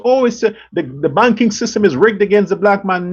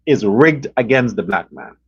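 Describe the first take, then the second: First: Mild mock wail, the world's sob story; mock whining complaint. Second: Said in the usual way. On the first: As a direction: parody the complainers lightly, pitch barely up. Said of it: "And the world cries". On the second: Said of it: "No, the black man's culture".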